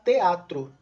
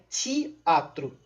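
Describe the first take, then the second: First: The first consonant is a plain t sound. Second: The first consonant sounds like ch, affricated. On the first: This is how another region of Brazil says it. "uma outra região do Brasil, por exemplo, falar teatro" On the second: This is how it is said in Rio de Janeiro. "no dialeto carioca é teatro"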